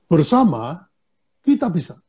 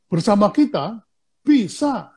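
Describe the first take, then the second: First: The break falls after the first word. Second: The break falls after the second word. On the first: Together, we are able to do it. The speaker calls it right. "Kalau yang pertama itu kita bersama-sama, kita bisa" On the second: Only with us can you succeed. The speaker calls it wrong. "kalau bacanya keliru, maknanya juga beda"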